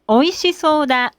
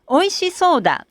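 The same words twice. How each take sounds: First: The pitch stays level with no drop. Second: The pitch rises and then drops inside the phrase. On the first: "When we use flat style" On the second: "When we use 起伏 style"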